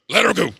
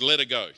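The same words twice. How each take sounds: First: It is said gruffly in a Yorkshire accent. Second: It is said in a plain narrating voice.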